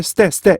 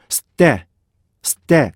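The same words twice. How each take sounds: First: 스테 run together quickly with no gap; unseparated 스테; without separation. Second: 스테 with a held stop between 스 and 테; longer, split 스테; separated with a stop. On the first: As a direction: rush 스테 as plain Korean syllables. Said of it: "이게 아니고". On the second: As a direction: lengthen 스, pause, then release 테. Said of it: "분리하셔야 돼요". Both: Shown as a demonstration.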